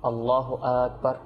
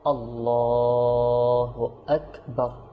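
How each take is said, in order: First: The vowel after the L is not drawn out. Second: The vowel after the L is drawn out long. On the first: The speaker calls it wrong. "এরকম যেন না হয়" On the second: The speaker calls it right. "টানবো কোথায় লামে"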